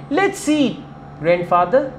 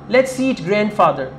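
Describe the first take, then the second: First: There is a pause before 'grandfather'. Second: It runs straight on with no pause. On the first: The grandfather is being invited to eat. "But if you say" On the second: The grandfather is the thing to be eaten. "I don't use any pause in it"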